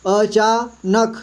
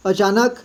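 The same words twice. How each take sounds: First: अचानक slowly split as अ, चा, नक; syllable by syllable. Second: Said in the usual way. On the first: Shown as a demonstration. Teacher reading for beginners, अचानक syllable by syllable. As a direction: sound out अचानक in slow pieces. Teacher spells word out, then blends.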